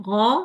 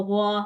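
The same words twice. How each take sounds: First: गौ heavy and full from the throat; correct demo. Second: गौ thin and light, not heavy; wrong demo. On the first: Teacher shows students the right गौ. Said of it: "आपने पढ़ना है". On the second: Teacher shows the thin गौ to avoid. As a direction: say गौ lightly as the mistake. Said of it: "ये नहीं करना". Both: Shown as a demonstration.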